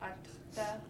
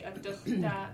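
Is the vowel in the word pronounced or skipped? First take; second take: skipped; pronounced. First: The E vowel is skipped in the word. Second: The E vowel is pronounced in the word. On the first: This is how southern speakers say it. "south Adukhta" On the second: This is how northern speakers say it. "north they say Adukhta"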